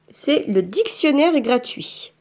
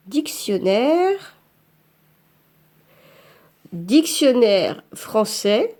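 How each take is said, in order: First: Said in the usual way. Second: Dictée lente en tapant. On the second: Shown as a demonstration.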